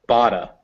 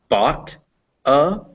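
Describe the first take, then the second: First: The T is a soft D-like linked sound. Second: The T is a clear, separate T sound.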